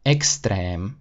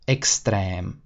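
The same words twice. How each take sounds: The two takes are said the same way.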